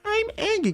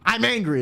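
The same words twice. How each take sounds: First: It sounds angry but also sad. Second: It sounds simply and purely angry.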